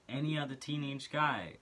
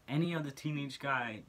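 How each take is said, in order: Both takes have the same delivery.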